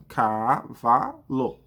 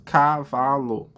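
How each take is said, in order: First: "Cavalo" stretched very slowly into ca-va-lo; child sounding out. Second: Said in the usual way. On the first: Retold or imitated. Teacher imitating a child sounding out the word, very slow. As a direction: drag each syllable of "Cavalo" like a child reading. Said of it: "A criança começa a fazer a correspondência". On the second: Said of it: "eu peço pra criança novamente".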